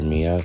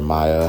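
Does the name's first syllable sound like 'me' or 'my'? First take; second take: me; my. First: The first syllable sounds like 'me'. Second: The first syllable sounds like 'my'. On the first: The speaker calls it wrong. "I was pronouncing it Mia" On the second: The speaker calls it right. "I guess it should have been pronounced Maya"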